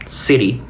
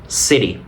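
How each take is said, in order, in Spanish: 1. Tiene acento americano con una t tipo r. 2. Tiene acento americano con una t tipo r.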